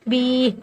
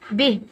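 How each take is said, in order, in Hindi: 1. स्वर को खींचकर लंबा पढ़ा गया है। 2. स्वर छोटा है और खींचा नहीं गया है। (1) "बी ऐसे नहीं" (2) "बिह खींचेंगे नहीं"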